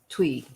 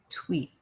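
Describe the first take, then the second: First: The name ends on a vowel sound. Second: The name ends with a t sound. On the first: The speaker calls it right. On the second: The speaker calls it wrong.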